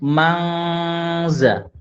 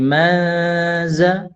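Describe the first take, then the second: First: An ng sound is heard before the z. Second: Only a faint nasal hum comes before the z. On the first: The speaker calls it wrong. "tidak boleh juga mangza" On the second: The speaker calls it right. "dengung tipis"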